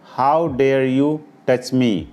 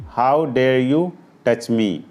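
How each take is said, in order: The two takes are said the same way.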